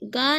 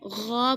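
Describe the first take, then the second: First: It starts with a plain g sound. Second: It starts with a throaty sound from the throat. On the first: The speaker calls it wrong. "इसको गा नहीं पढ़ेंगे" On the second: The speaker calls it right. "गौ पढ़ेंगे"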